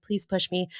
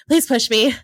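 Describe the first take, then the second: First: Quiet begging. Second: Louder begging. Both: Retold or imitated. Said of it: "I remember just begging him".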